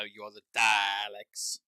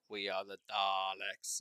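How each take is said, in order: First: Daleks loud and stretched, A as in cat; emphatic correction. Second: Slow chant, Daleks as long "Darleks"; mimicked mispronunciation. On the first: Retold or imitated. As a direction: correct them slowly, blasting Daleks with no R. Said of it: "And it's like, "No". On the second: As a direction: imitate fans intoning Daleks with an "ar". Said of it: "everyone was, like, saying".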